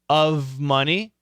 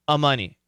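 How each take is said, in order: First: The V sound is kept in the first word. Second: The V sound is dropped from the first word.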